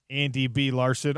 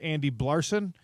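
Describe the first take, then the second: First: The B is said as a separate letter. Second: The B is blended into the surname.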